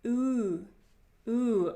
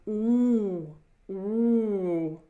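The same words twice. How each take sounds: First: Oo made with the lips only. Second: Ooh sent to the back of the head; deep back ooh. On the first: Teacher shows students the wrong lip oo. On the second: Teacher models deep ooh, sound at the back. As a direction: make ooh dark and deep from inside. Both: Shown as a demonstration. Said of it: "It's not oo".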